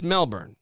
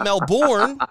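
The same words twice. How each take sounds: First: "Melbourne" said plainly as MEL-bern, short unstressed ending; correct pronunciation. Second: "Melbourne" drawn out as Mel-BORN, full "bourne" like born, higher and louder; mock the over-careful "Melbourne" with a full born ending; wrong pronunciation. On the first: Host correcting the pronunciation, plain MEL-bern. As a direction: give "Melbourne" the relaxed American MEL-bern. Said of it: "It's, it's Melbourne". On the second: Host mocking another commentator's pronunciation, exaggerated Mel-BORN. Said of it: "It's not Melbourne unless you're Australian".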